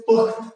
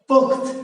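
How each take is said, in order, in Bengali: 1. শব্দটি হসন্ত t দিয়ে শেষ হয়। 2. শব্দটি হসন্ত t দিয়ে শেষ হয়।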